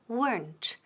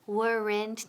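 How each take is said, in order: First: The word is said with one syllable. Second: The word is said with two syllables. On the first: The speaker calls it right. "Decimos weren't, weren't y con T al final. Una sílaba, no dos" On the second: The speaker calls it wrong. "No decimos weren't"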